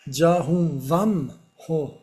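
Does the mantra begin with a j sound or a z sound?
j sound. It starts with j and has vam. This is the Sanskrit pronunciation. The speaker calls it right. "c'est ja, c'est pas za"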